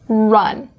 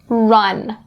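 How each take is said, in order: First: The R is made with lips pushed out. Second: The R is made with lips pushed out.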